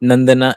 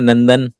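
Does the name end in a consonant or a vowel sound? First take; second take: vowel; consonant. First: The name ends with an added vowel sound. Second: The name ends on a consonant sound. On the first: This is the popular way of saying it. "ये चल रहा है बहुत popular" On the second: This matches how it is written. "नंदन ही लिखा जाएगा"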